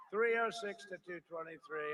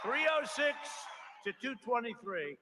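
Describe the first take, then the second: First: Said in the usual way. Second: Triumphant shout. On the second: Real, not acted. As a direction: proclaim the win to the crowd. Crowd-rousing result call.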